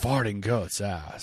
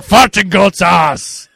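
First: Low, slow movie-line impression; Nick Cage. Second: High, loud, slow mock movie yell; shouted actor imitation. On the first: Host performs a favorite movie line on request, lightly impersonating. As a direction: deliver it lower and softer, drawn out. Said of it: "in a Nick Cage voice". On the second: Host corrects how the actor said the line, hammed-up shout. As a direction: belt the line out slowly, hammed-up. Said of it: "didn't say it with that accent".

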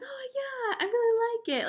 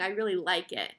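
First: Much higher, squeaky fake-polite "I really like it"; forced enthusiasm. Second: Said in the usual way. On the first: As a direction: sell a liking you don't feel, pitched way up. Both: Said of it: "I just kept on saying".

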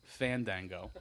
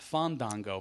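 First: Fandango with short "a" as in fan; corrected Fandango. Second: Fandango with broad "ah" vowels, Fahn-dahn-go; mispronounced Fandango. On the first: Correcting Miguel, Fandango said as fan-dang-go. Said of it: "Not Fandango, Miguel". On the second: Correcting Miguel's version, Fandango mispronounced as Fahn-dahn-go. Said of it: "Not Fandango, Miguel. Fandango". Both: Shown as a demonstration.

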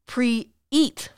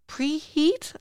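First: "Pre-eat" in two parts, no H; pre-eat without H. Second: "Preheat" asked high, with a clear H. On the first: Group leader corrects a misheard word, careful H-less "Pre-eat". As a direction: split "Pre-eat" into pre and eat, dropping any H. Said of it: "she says". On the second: Puzzled listener checks what the group leader said, questioning "Preheat". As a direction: sound the H in "Preheat", rising as a question. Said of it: "Preheat, I say?". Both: Acted.

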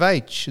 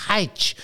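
First: Said in the usual way. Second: "H" said as "haitch"; H sounded at start. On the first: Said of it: "instead of H". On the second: Shown as a demonstration. Co-host lists how some people say it, "H" as haitch. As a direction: breathe an h onto "H": haitch. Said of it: "some people say H instead of".

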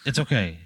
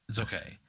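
First: Said in the usual way. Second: Much softer, near murmured; softly reassuring herself; soft repeat. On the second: Acted. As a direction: say it again, barely above a breath. Gymnast repeats her reassurance.

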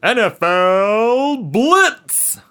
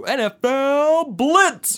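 First: Slow, booming game announcer. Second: High, loud, slow game intro shout; announcer voice. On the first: Pretend. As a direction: hype it like a sports game intro. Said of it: "where did that announcer voice come from?". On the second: Retold or imitated. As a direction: boom it out like a title screen. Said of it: "it would go".

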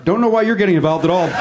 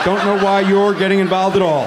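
First: Said in the usual way. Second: You're leaned on as the peak; stress on you're. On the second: Real, not acted. Host rebuking an audience member who butted in, stress on "you're". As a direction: put the weight of the rebuke on "you're".

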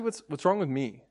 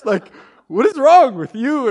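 First: Subdued, halting question to himself; self-questioning. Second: Loud, high, drawn-out accusation; exasperated blame. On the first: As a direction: turn the blame inward, deflated. Blame turned back on himself. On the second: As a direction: demand it slowly in hammed-up exasperation. Indignant blame before turning it inward. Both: Retold or imitated.

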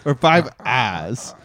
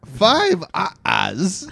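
First: Slow, lower Or five ahs; slow correction. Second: Five ahs with a rising, questioning tune; rising count. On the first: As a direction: drag the words out, lower and deliberate. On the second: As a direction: ask it lightly, voice going up. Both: Shown as a demonstration.

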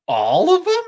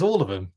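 First: Much higher and louder, a big incredulous squeal on them; squealing all of them in astonished delight; shocked excited disbelief. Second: Said in the usual way. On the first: Retold or imitated. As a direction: mimic an over-the-top game-show gasp of disbelief. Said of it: "You know how he's like". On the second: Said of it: "and David says".

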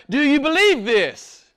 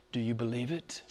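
First: High, ringing question from scripture; proclaimed scripture question. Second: Low, very soft question; quiet, low, searching question; hushed personal question. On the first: A narrator's reading. Reads Jesus' question aloud, projecting. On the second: Real, not acted. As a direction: drop right down and ask them personally. Puts question personally to congregation.

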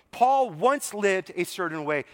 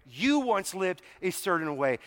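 First: "Paul" leaned on at the start; stress on Paul. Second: "You" leaned on at the start; stress on You. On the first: Preacher compares Paul with listeners, stress on "Paul". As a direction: put the weight on "Paul", then ease off. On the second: Preacher turns the point on the congregation, stress on "You". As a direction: put the weight on "You", turning it on the listener. Turning the same line on listeners. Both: Real, not acted.

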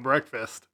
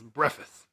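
First: Said in the usual way. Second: "breakfast" said as BREFF-iss. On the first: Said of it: "anytime we talk about breakfast". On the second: Shown as a demonstration. Friends repeating the meme's word, "breakfast" as BREFF-iss. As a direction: drop the k and t from "breakfast". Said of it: "anytime we talk about breakfast, it's".

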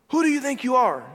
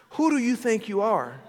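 First: Who hit harder and higher on the repeat; emphatic repeat. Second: Said in the usual way. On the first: Acted. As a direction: punch the Who and press the question. Preacher repeats challenge, stronger.

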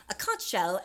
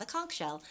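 First: "conch" ending in "ch" as in "lunch"; conch with soft CH. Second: "conch" said as "conk"; conch with hard K. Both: Shown as a demonstration. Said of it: "not a conch shell".

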